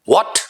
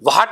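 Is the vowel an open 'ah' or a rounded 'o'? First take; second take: rounded o; ah. First: The vowel is a rounded 'o' with oval lips. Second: The vowel is an open unrounded 'ah' sound. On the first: The speaker calls it right. "Right pronunciation है वॉट" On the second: The speaker calls it wrong. "वाट नहीं"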